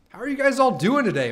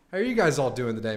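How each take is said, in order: First: High, loud hyped greeting; excited greeting. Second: Said in the usual way. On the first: Real, not acted. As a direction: call it out high and loud to the chat.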